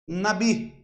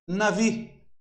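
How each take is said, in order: First: The middle consonant is a B sound. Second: The middle consonant is a V sound. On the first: "Se eu colocar assim, ó, nabi" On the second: "Se eu tirar, tirei o acento, navi"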